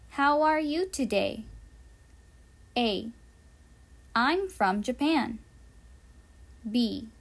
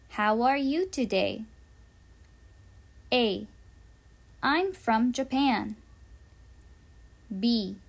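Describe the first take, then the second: No difference in how they are said.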